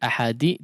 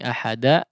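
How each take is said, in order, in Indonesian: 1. Huruf d terakhir diikuti vokal 'i'. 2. Huruf d terakhir diikuti vokal 'a'. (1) "tidak seperti ahadi" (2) "tidak seperti bunyi ahada"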